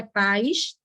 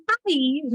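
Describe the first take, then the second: First: "paz" said as one gliding syllable, "pais"; "paz" as a single low diphthong syllable; wrong one-syllable version. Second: "país" as pa-ÍS, stressed on a separate í; "país" with a clearly separate, stressed í; hiatus, vowels apart. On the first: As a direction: run the vowels of "paz" together as "páis". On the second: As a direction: split "país" into two syllables, pa-ÍS. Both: Shown as a demonstration. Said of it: "não é paz".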